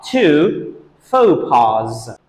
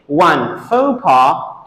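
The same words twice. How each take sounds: First: Very slow FAUX PAS as foh-PAHZ; plural pronunciation. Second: Slow FAUX PAS as foh-PAH; singular pronunciation. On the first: Teacher sums up the plural, plural pronunciation. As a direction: close faux pas with a buzzing Z. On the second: Teacher sums up the singular, singular pronunciation. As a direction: end faux pas on an open "ah". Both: Shown as a demonstration. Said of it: "So we say".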